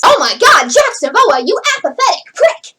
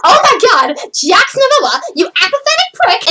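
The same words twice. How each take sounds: First: Half-committed acted line read; stilted, word-by-word line delivery; not fully in character. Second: Emphatic, higher-pitched exasperated outburst; fully in character. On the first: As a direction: recite the insult without real feeling behind it. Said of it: "like the second version of that". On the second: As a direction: deliver the insult with full expressive feeling. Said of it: "sound like he understands the basic emotion". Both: Shown as a demonstration.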